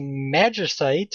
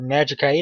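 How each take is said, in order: First: The stress is on the first part, magic. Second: The stress is on the last part, site. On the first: "stress the magic" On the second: "or the site"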